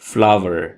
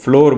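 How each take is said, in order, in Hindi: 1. यह शब्द बिल्कुल 'flower' जैसा सुनाई देता है। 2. यह शब्द 'door' के साथ तुक मिलाता है, इसमें एक ही सिलेबल है। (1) "इसकी सही प्रोनंसिएशन है फ्लावर" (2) "अब तक हम इस वर्ड को फ्लोर बोलते हैं जो कि बिल्कुल गलत है"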